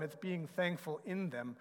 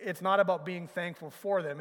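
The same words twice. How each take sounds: First: In pressed and falling, rest softer; being thankful IN them; stress on in. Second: Not pressed hard and falling; it's NOT about being thankful for them; stress on not. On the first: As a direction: lean on the word in. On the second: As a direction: lean on the word not. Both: Shown as a demonstration.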